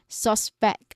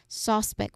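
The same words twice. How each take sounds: First: The stress is on the second syllable. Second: The stress is on the first syllable. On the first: It means to doubt or think something is wrong. "So the stress syllable is pect" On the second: It names a person under suspicion. "first syllable is stressed here"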